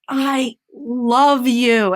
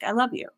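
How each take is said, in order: First: It is said expressively, with feeling. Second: It is said flatly, without expression.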